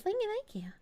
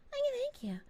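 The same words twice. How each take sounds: First: A soft, higher thank-you. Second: Breathy whispered thank-you. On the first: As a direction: say it gently, almost under your breath. Thanking chat, soft then whispered. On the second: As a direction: whisper it like ASMR. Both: Real, not acted.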